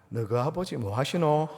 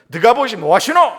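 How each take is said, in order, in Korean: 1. 부드럽고 다정한 말투로 말해요. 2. 강하고 거친 말투로 말해요. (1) "이 부드러운 뭐 하시노는" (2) "좀 강한 어조입니다"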